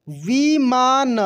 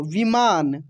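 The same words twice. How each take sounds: First: विमान slowly as vi, maa, na; syllable by syllable. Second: Said in the usual way. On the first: Shown as a demonstration. Teacher reading for learners, विमान slowly syllable by syllable. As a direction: stretch out each syllable of विमान. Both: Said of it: "अब direct पढ़ते हैं".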